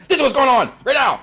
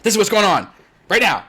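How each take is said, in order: First: Curt and much higher, louder; blunt, pushed harder. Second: Curt, louder no-nonsense statement; blunt. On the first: Streamer switching to the next person, sharper blunt. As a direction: snap the facts out impatiently. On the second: Busy streamer answering someone, curt and blunt. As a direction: state it straight to the point, no pleasantries. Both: Shown as a demonstration. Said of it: "like, blunt".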